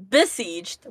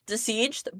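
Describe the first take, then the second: First: "Besieged" said as be-sieged. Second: "Besieged" said as de-sieged, questioning. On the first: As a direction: start "Besieged" with a clear B sound. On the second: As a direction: start "Besieged" with a D sound, as a question. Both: Shown as a demonstration. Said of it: "with a B".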